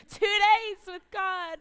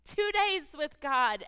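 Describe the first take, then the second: First: "Two days with God" much higher and louder, slow, stress on "days"; refrain built up. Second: "Two days with God" louder and slow, stress on "days"; preached refrain. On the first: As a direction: hit the refrain harder the second time. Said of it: "repeated refrain, stronger take". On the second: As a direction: land the refrain firmly. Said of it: "repeated refrain, first take". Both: Acted.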